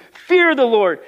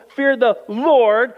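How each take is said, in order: First: Fear punched high and loud; stress on fear. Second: Slow, with Lord rising and held; stress on Lord. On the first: Preacher urging saints to fear the Lord, with Fear punched loud and high. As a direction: hit the word Fear hard. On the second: Preacher contrasting the world with God, Lord drawn out and rising. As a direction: lean into Lord slowly. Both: Acted. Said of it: "Not fear the world, fear the Lord".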